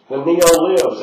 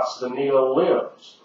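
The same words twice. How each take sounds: First: "neo-libs" punched out louder, pitch thrown up high; "neo-libs" hit hard and loud; stress on neo-libs. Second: "neo-libs" stretched out slowly with a rising tune; slow stressed neo-libs. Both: Shown as a demonstration.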